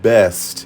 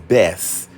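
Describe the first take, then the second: First: The word ends with a clear t sound. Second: The word ends in s with no t. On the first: The speaker calls it right. "you can't even pronounce the word best" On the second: The speaker calls it wrong. "It's always best. B E S S"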